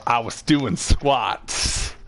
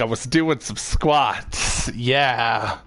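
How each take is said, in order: First: Drawn out, very slow and awkward; slow awkward excuse. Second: Drawn out, deliberate and sheepish; slow awkward excuse. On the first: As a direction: stretch it out like a bad lie. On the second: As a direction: say it slowly, committing to the lie. Repeats excuse as chosen. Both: Retold or imitated.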